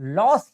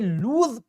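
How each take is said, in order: First: It has a short vowel and ends in s. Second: It has a long vowel and ends in z. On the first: The speaker calls it wrong. "इसको कुछ लोग लॉस ही पढ़ते हैं" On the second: The speaker calls it right. "इसका सही उच्चारण जो है वो ज में आता है"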